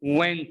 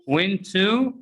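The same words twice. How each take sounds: First: "Went" as one word, "wenta"; weak "tuh" tacked onto "Went"; reduced pronunciation. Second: "went to" as two words, rising on "too"; full vowel at the end of "went to"; carefully separated "went to"; unreduced citation form. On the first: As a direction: blend it into a short "wenta". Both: Shown as a demonstration. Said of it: "is pronounced what?".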